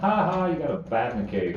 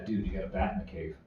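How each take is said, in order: First: It is said loudly and mockingly. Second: It is said quietly and discreetly.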